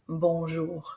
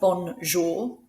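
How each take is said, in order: First: No N sound is pronounced in the middle. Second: An N sound is pronounced in the middle. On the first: The speaker calls it right. "We don't say the N in the middle" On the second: The speaker calls it wrong. "so it's not bonjour"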